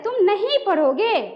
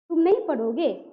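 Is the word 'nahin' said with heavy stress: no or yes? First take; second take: yes; no. First: The word nahin is lengthened and heavily stressed. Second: The sentence is said evenly, with no heavy stress. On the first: The speaker is angry. "गुस्सा में क्या कहता है, नहीं पे बल पड़ रहा है ना" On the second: It is a plain, calm statement. "ये सामान्य अवस्था है"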